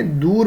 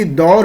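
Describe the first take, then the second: First: دور said as "door", with a long oo; long oo vowel. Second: دور said as "daur", with an open au; open au vowel. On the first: Teacher giving the waw maroof reading, دور said "door". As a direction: pronounce دور with a pure drawn oo. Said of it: "ہم اس کو کیا پڑھ رہے ہیں". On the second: Teacher showing what is not waw maroof, دور said "daur". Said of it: "اگر یہی دور ہو جاتا". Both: Shown as a demonstration.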